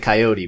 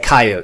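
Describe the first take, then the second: First: It is pronounced the Eastern regional way. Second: It is pronounced the Western regional way. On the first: "out here on the East we say coyote" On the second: "you guys say coyote"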